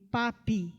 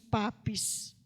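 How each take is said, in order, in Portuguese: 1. O nome termina com um som de I, sem S. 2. O nome termina com um som de S audível. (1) "ele se transforma em papi ... sem o S" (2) "nós falamos papes, e ainda assim está errado"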